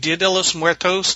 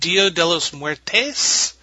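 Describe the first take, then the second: First: The last word ends with an 'os' sound. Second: The last word ends with an 'es' sound. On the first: The speaker calls it right. "It's actually Dia de los Muertos" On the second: The speaker calls it wrong. "continued calling it Dia de los Muertes, which is not correct"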